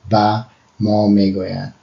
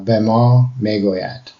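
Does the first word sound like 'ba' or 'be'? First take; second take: ba; be. First: The first word is said as 'ba'. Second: The first word is said as 'be'. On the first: This is the Dari way of saying it. The speaker calls it right. "for in Dari, it's ba, uh, not be" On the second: This is the Iranian way of saying it. The speaker calls it wrong. "sometimes you'll catch me say be"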